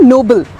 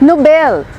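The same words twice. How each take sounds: First: "नोबल" as NO-bul, first syllable stressed; weak second syllable in "नोबल"; word contrast. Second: "नोबेल" as no-BELL, second syllable stressed; slow model "नोबेल", no-bell; correct pronunciation. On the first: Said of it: "ये word है नोबल". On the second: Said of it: "the सही pronunciation of that award". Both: Shown as a demonstration.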